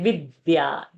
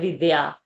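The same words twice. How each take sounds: First: The d sound is held and doubled. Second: The d sound is short and single. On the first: The speaker calls it right. "We say Vidya. ... The V is having a pressure" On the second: The speaker calls it wrong. "We don't say Vidya"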